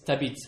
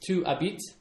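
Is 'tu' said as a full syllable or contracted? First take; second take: contracted; full. First: The word tu is contracted to a t sound. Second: The word tu is said as a full syllable. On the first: "if you say that quickly, it's t'habites" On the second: "if you say you live, it's tu habites"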